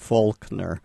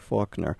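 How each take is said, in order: First: The L sound is pronounced in the name. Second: The L sound is silent in the name. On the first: The speaker calls it wrong. "we don't say Faulkner" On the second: The speaker calls it right. "preserves the original L-less pronunciation"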